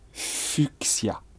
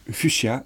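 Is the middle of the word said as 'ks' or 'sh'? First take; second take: ks; sh. First: The middle is said with a ks sound. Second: The middle is said with a sh sound. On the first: Hardly anyone says it this way. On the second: This is the usual way to say it.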